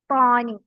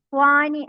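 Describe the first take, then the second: First: The t sound is heavy, with a full mouth. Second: The t sound is light and thin. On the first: The speaker calls it right. "വായ നിറച്ചിട്ട്" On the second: The speaker calls it wrong. "ത്വാനി അല്ല"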